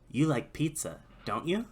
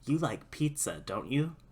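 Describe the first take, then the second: First: The pitch rises at the end. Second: The pitch stays level or falls at the end. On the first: The answer is maybe yes. "That's maybe yes" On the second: The answer is probably yes. "That means probably yes"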